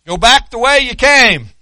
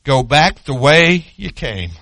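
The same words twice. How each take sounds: First: Much louder and higher, ringing out; the command shouted back to the congregation; preached loud. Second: Slower, measured voice of God; God's steady word to the prophet, unhurried; God speaking. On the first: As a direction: hurl the command out to the whole church. Preacher repeats the command loudly. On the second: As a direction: give the command calmly, as God to his prophet. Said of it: "He says". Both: Acted.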